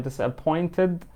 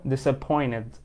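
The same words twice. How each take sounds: First: Disappointed with a clear "id" ending and the T softened; -ed pronounced. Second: Disappointed said with the T after N dropped, "disappoinid". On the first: Teacher models the -ed ending of disappointed for students. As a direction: stretch out disappointed so the ending is heard. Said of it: "فبالتالي هتنطق اي دي". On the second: Teacher shows the easier pronunciation of disappointed, T dropped. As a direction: glide through disappointed without the T. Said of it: "بن drop تي هنا". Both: Shown as a demonstration.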